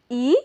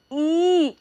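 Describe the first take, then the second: First: Said in the usual way. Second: ई drawn out long and held; ई pulled long for a lesson. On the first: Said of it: "हम खींच कर पढ़ेंगे". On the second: Shown as a demonstration. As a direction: stretch the vowel ई out slowly. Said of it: "इसे जो है ना, हम खींच कर पढ़ेंगे".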